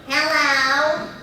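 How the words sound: The voice is nasal and throaty, snide.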